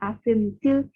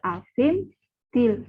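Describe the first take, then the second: First: The phrase is said smoothly without a pause. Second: The phrase is broken by a pause. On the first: The speaker calls it right. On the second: The speaker calls it wrong.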